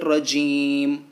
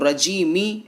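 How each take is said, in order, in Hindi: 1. शब्द के आखिर में खामोश 'म' है। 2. शब्द छोटी 'इ' की मात्रा पर खत्म होता है। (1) "हमें पढ़ना है रजीम, मीम को साकिन करना है" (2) "रजीमी ऐसे करके वक्फ नहीं करेंगे"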